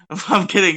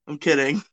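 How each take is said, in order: First: Laughing, higher and louder. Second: Said in the usual way. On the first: Real, not acted. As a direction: laugh through the retraction.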